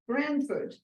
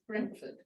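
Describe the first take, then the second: First: It is said with an American accent. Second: It is said with an English accent. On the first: "they pronounce it" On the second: "when you pronounce it in English sounds like Brentford"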